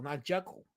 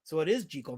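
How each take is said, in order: First: Jekyll with a short e, JECK-ul; changed pronunciation. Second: Jekyll with a long ee, JEE-kul; original pronunciation. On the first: Rejecting the way the name changed over years, JECK-ul pronunciation. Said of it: "just changed it". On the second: Settling how the name was really said, JEE-kul pronunciation. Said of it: "that's how they pronounced it". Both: Shown as a demonstration.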